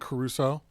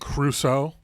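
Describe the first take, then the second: First: The name is said with an extra vowel. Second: The name is said without the extra vowel. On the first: "I was saying Caruso. There's an extra vowel in there" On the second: "She was saying Crusoe"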